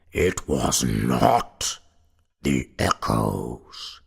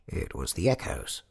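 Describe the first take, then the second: First: Slow, low, loud goblin; deep goblin voice. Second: Said in the usual way. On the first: A narrator's reading. Goblin corrects the paralyzed sexton, deep slow voice. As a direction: draw each word out deep and loud. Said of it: "said a deep voice".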